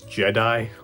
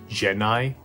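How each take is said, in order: First: The name is said like 'Jedi'. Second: The name is said like 'Genai'. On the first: The speaker calls it wrong. "I always thought it was Jedi" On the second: The speaker calls it right. "this guy's name was pronounced Genai"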